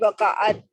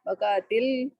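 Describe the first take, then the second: First: The final t ends bare, with no vowel. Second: The final t links forward with an i vowel. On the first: The speaker calls it wrong. "so it should be waqa'at" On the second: The speaker calls it right. "you have to attach the lam with the ta"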